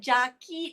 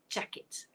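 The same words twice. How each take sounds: First: The last syllable has a long ee vowel. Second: The last syllable has a short, lax vowel. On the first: The speaker calls it wrong. "Tapi bukan i Melayu, ... bukan" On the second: The speaker calls it right. "Pendek. Eh. The short eh"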